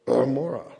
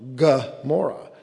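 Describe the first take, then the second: First: The name begins without a g sound. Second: The name begins with a hard g sound. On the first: This is the original Hebrew form of the name. "it was really originally Amora" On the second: This is the Greek rendering of the name. "they rendered Gomorrah with the Greek gamma in the front"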